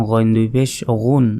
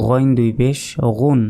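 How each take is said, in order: Both takes have the same delivery.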